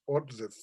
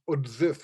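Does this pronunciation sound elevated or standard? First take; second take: standard; elevated. First: It is pronounced the ordinary, standard way. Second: It is pronounced the unusual, elevated way. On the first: This is the everyday form of the word. "Usually it's pronounced um, in standard Russian" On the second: This is a lofty, poetic form of the word. "in Borodinski's verse it's always odzif, which seems to give it a bit of an elevated um, uh, tone"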